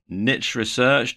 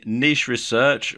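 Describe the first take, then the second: First: "niche" rhyming with pitch; niche as "nitch". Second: "niche" rhyming with leash; niche as "neesh". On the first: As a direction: say niche as "nitch", short i, tch ending. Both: Shown as a demonstration. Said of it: "depending on how you care to pronounce it".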